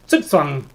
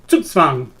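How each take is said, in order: First: It begins with a TS sound, German style. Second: It begins with a TS sound, German style.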